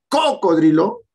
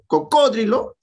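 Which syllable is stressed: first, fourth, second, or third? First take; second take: first; second. First: The stress is on the first syllable. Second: The stress is on the second syllable. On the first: "si fuera la cuatro" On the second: "la tres, esdrújula"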